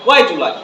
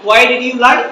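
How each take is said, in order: First: The words are said fast and run together. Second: The words are said slowly and separately. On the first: "ওরা নেটিভরা বলবে যে" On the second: "আমরা একটু slowly বলি"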